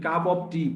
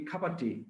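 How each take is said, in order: First: The word 'of' is said in full. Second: The word 'of' is reduced to 'a'. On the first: The speaker calls it wrong. "আমরা যেটা কই cup অফ টি" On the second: The speaker calls it right. "আসলে cup অফ টি না"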